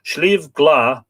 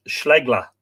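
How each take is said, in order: First: Said in the usual way. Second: "Schlegla" run together as one slow word, SHLEG-la; "Schlegla" with SHLEG in place of "Slieve", slowly; local pronunciation. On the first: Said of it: "pronounced Schlegla". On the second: Shown as a demonstration. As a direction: say "Schlegla" the local way, short e in the first syllable. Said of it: "pronounced Schlegla, locally".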